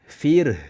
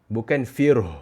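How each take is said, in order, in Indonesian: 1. Bunyi r itu ringan dan tipis. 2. Bunyi r itu berat dan tebal.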